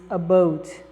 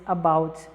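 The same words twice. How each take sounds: First: It is said with a Canadian accent. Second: It is said with an American accent. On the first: "E ele diz about" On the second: "Os americanos dizem about"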